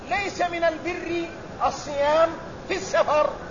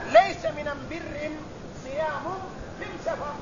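First: The definite article is pronounced al, not am. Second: The definite article is pronounced am, not al. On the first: It is the common Arabic form. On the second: It is the Himyarite dialect form.

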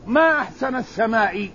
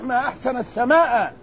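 First: The last word ends with an 'i' vowel. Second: The last word ends with an 'a' vowel. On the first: The speaker calls it wrong. "منصوب جعله مكسور، جعلتها مكسور" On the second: The speaker calls it right. "الصحيح"

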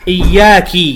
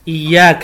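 First: The final consonant takes an i vowel. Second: The final consonant takes an a vowel. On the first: The speaker calls it wrong. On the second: The speaker calls it right.

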